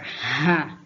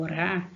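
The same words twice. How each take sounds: First: "ra" with a forceful h-like R; "ra" aspirated, as the strong option. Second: "ra" with a light tapped R; just flick the tongue on "ra"; "ra" unforced, as the weak option. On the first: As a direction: push breath hard through "ra". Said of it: "se vai pronunciar ra ou". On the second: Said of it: "falar ele com som fraco". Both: Shown as a demonstration.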